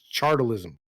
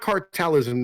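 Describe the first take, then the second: First: The word begins with a ch sound. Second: The word begins with a hard k sound. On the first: The speaker calls it right. "It's C H, so it's chartalism" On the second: The speaker calls it wrong. "It's not cartelism"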